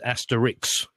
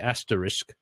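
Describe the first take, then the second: First: The word ends with a final 'ix' sound. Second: The word ends with a final 'isk' sound. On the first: This is how everyone else says it. "everybody says asterix" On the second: This is how the speaker personally says it. "I say asterisk"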